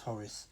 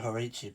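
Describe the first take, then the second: First: The name is said with an English-style ending. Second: The name is said with a Czech-style ending. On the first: "I try and pronounce it an English way" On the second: "as they pronounce it"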